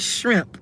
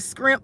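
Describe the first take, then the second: First: The word begins with an shr sound. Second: The word begins with an scr sound. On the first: This is the word they are aiming for. "they're trying to say shrimp" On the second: This is how local people used to say it. "How they used to say down here"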